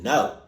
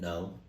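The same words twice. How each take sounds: First: The word is said in a suspicious way. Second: The word is said plainly and simply. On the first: The denial sounds like the person is hiding something. The speaker calls it wrong. "that was hella suspicious" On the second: A simple, honest denial. The speaker calls it right. "You could have just said no"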